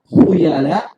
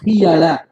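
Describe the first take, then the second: First: The first vowel is an 'oo' sound. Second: The first vowel is an 'ee' sound. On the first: "dibaca dengan mendomahkan kha" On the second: "boleh juga dibaca di kasroh"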